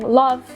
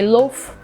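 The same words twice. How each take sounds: First: The vowel is open, as in standard southern English. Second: The vowel is closed, as in northern English. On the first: "instead of saying" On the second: "you would say"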